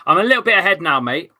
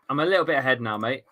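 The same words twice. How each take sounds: First: Loud triumphant update to the stream; louder announcement. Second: Said in the usual way. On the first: Real, not acted. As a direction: announce it proudly to the viewers, louder.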